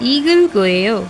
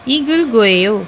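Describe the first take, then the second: The two takes are said the same way.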